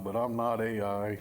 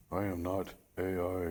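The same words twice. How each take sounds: First: Said in the usual way. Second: Flat robotic AI voice; robot monotone voice. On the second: Shown as a demonstration. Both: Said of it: "real monotone voice".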